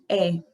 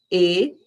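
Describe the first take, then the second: First: "E" open, like é; open Portuguese E. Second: "E" closed, like ê; name the letter with a closed e; Spanish E. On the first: Teacher showing the open e to avoid. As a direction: show the wrong open e. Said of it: "eu pronunciei E e não". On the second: Teacher correcting the name of the letter E. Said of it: "que não se chama E, se chama a letra E". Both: Shown as a demonstration.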